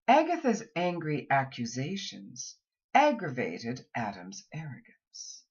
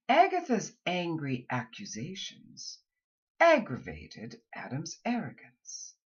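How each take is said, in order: First: Whole sentence read as one clear thought group; one smooth phrase through to arrogance. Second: Short pause after accusations, then aggravated Adam's arrogance; two thought groups. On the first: Coach models a sentence for students. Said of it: "say them in clear thought groups". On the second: Coach repeats the sentence in two groups. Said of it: "say them twice". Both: Shown as a demonstration.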